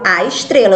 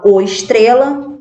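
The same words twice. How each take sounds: First: Said in the usual way. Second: "o estrela" with the wrong article "o". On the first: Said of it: "Eu falo a estrela". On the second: Shown as a demonstration. Teacher showing pupils what not to say, wrong "o" in "o estrela". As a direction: say "o estrela" as the example to avoid. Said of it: "eu não falo o estrela".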